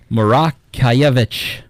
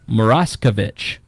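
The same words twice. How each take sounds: First: The name is said with Polish sounds. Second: The name is said with anglicized English sounds. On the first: This is how it is said in Poland. The speaker calls it right. "it should be said Moraskevich" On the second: This is how the family in America says it. The speaker calls it wrong. "My family says Moraskevich. That is not authentic"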